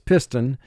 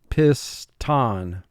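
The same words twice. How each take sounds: First: The second syllable has a weak, reduced vowel. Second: The second syllable has a full, clear vowel. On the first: This is how the word is said in everyday speech. "the speaking vocabulary for this word is piston" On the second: This is said to help with spelling the word. "but for spelling, piston"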